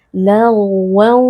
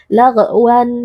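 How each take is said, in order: First: "Lagwan" with the gh sound flowing on unbroken; flowing ghain. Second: "Lagwan" with a bounced, echoed stop on the gh; wrong qalqalah. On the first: Teacher showing correct ghain sukun, flowing gh in "Lagwan". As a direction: let the gh in "Lagwan" run smoothly into a held nasal wan. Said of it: "harus kita alirkan sedikit suaranya". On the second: Teacher showing the common ghain mistake, bouncing the gh in "Lagwan". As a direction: break "Lagwan" after gh with a tiny extra vowel. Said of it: "membaca huruf ghain sukun ini dengan qalqalah". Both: Shown as a demonstration.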